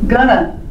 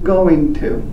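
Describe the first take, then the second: First: The words blend into one reduced word. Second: The two words are said fully and separately. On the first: "You're just hearing it as gonna" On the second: "They were saying the modal going to"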